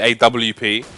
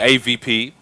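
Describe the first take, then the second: First: Spelled out as letters, with 'double-u'. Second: Spelled out as letters, with a V sound. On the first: This is how English speakers say it. "We say A W P" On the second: This is how Nordic speakers say it. "the Nordics say A V P"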